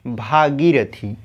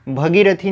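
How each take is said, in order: First: भागीरथी with long aa, said slowly; correct form, slow. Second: भगीरथी with short a, bhagirathi; wrong form. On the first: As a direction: stretch भागीरथी, bhaa-girathi. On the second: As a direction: say भगीरथी with bhə. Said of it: "भगीरथी नहीं". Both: Shown as a demonstration.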